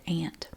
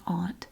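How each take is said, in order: First: The vowel sounds like the vowel in 'ant'. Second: The vowel differs from the vowel in 'ant'. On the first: This is how people say it in the speaker's home dialect. "in my dialect where I grew up, we said aunt" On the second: This is how other speakers say it. "Some people pronounce it aunt"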